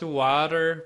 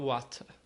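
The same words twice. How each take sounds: First: The final R is clearly pronounced. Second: The final R is nearly silent. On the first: People there did not understand it. The speaker calls it wrong. "se você falasse water, o pessoal não entendia" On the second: This is how people there say it. The speaker calls it right. "tinha que falar water"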